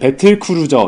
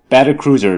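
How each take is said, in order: First: It is said with Korean syllable-by-syllable pronunciation. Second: It is said with a native English-like pronunciation. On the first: "이렇게 발음하면 내가 알아들을 수 있냐" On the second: "이렇게 하지 않아도"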